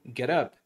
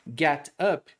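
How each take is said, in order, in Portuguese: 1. As duas palavras se juntam e soam como uma só. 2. As duas palavras são ditas separadamente.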